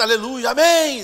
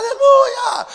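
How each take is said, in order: First: Loud, slow praise, short of a scream; less shouted praise. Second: Very high, loud praise shout; congregation yelling. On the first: Church crowd while the lights are on, restrained praise. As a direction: praise loudly but hold back the scream. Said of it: "o pessoal não grita". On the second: Church crowd as the lights go out, mock yelling. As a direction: imitate a crowd screaming in the dark. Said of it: "começa a gritar mais alto". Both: Retold or imitated.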